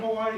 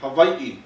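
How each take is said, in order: First: It is said with the common English pronunciation. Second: It is said with the native Hawaiian pronunciation. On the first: It is how tourists say it. The speaker calls it wrong. "Don't let me catch you on T V doing that" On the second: It shows respect for the native people. The speaker calls it right. "this is how Native Hawaiians pronounce their homeland"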